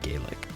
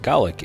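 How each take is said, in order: First: The word has the Irish pronunciation. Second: The word has the British pronunciation. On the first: "we Americans tend to use the Irish pronunciation of Gaelic" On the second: "it's pronounced Gaelic in Britain"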